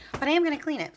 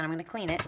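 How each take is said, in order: First: "am" punched high and firm; stress on am. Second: Said in the usual way. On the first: Real, not acted. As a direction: hit the word "am" hard and high.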